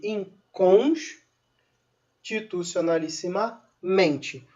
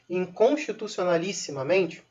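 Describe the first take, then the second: First: "inconstitucionalissimamente" slowly broken up, with secondary stress on "com" and main stress on "men"; secondary stress demo. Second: Said in the usual way. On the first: Shown as a demonstration. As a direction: say "inconstitucionalissimamente" slowly in chunks, pausing after the stressed "cons". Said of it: "um acento secundário em com". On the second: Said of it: "palavras muito grandes".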